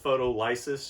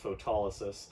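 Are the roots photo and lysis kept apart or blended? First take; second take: apart; blended. First: The parts photo and lysis stay clearly separate. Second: The parts blend together with the standard stress. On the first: The word's roots are made easy to hear. The speaker calls it wrong. "I usually pronounce it photolysis just so you can really see the roots in there" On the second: This is the standard pronunciation. The speaker calls it right. "but it's pronounced photolysis"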